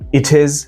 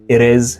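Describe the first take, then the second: First: The t between words is a clear t. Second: The t between words is a soft d. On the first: "It is in British" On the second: "it is in American"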